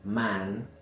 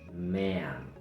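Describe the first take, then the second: First: The vowel stays tense without relaxing. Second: The vowel starts tense, then relaxes. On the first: The speaker calls it wrong. "Entonces no es man" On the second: The speaker calls it right. "Empezamos con la tensión, pero luego el sonido se relaja"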